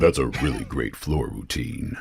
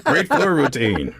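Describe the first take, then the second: First: Low, deep voice-actor tone; deepest voice possible. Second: High, drawn-out cheer; mock fan cheer. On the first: Shown as a demonstration. Voice actor obliging host's request, deepest voice. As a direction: push it down as deep as it goes. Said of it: "say that in your deepest voice possible". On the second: Sports fan joking about cheering any gymnastics, mock cheer.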